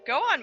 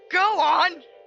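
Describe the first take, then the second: First: It is said mildly, without force. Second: It is said forcefully, as a command.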